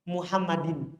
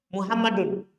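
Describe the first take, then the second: First: The word ends with an i-sound vowel. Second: The word ends with an u-sound vowel. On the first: The word follows a preposition. "dibaca kasroh" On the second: The word is the subject of the sentence. "dibaca dhammah"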